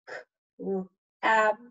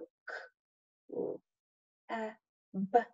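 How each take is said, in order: First: The sounds are said quickly and together. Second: The sounds are said slowly and apart. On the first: "Now I'm going to say it faster" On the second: "I'm going to start by saying each letter sound"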